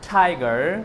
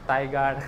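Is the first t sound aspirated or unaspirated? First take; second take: aspirated; unaspirated. First: The t is said with a puff of air. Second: The t is said with no puff of air. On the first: The speaker calls it right. "ওলাইছে" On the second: The speaker calls it wrong. "নোলাই হাৱা"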